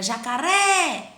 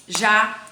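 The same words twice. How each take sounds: First: JACARÉ with a long drawn-out RÉ; stretched stressed syllable. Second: JACARÉ in loud, separate syllables. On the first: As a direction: hold the final ré in jacaré. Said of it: "cadê minha sílaba tônica?". (jacaré com o "ré" bem alongado) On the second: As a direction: chop jacaré into ja, ca, ré with pauses. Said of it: "vamos separar a palavra em sílaba". (jacaré separado sílaba por sílaba) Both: Shown as a demonstration.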